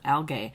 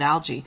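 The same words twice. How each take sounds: First: The g is said as a hard g. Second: The g is said as a soft g. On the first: This is how some British speakers say it. "some British people pronounce it algae, which to me makes sense" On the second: This is how the speaker grew up saying it. "I grew up calling it algae"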